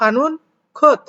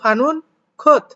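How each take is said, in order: First: The words are read apart, second word unchanged. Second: The words are read apart, second word unchanged.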